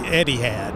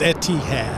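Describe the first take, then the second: First: The middle consonant sounds like a soft d. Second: The middle consonant is a clear t sound. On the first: The speaker calls it wrong. "as an American, it's hard not to say Eddie had" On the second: The speaker calls it right. "but it's Etihad"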